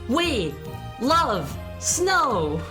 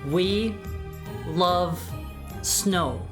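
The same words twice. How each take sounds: First: The phrase is said loudly. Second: The phrase is said quietly. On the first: "Say it loud" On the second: "I'll say it quiet once first"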